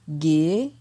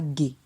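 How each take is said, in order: First: The syllable has a rising tone. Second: The syllable has a low tone. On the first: "ton montant" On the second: "ton bas"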